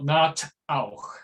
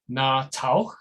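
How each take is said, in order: First: A catch splits the t from the vowel. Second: The t runs straight onto the vowel. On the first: "but it's also not na auch" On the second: "not na tauch, because that is, of course, wrong"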